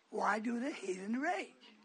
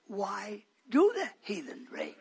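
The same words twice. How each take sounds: First: Said in the usual way. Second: "Why do the heathen rage" slow and weighted, DO leaned on; added emphasis. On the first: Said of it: "putting a little more emphasis on it". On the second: Shown as a demonstration. Preacher stresses his answer to callers, weighty "Why DO the heathen rage". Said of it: "I've been putting a little more emphasis on it".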